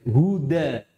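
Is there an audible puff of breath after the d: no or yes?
no. The d is released without a puff of breath. The speaker calls it right. "tapi huda"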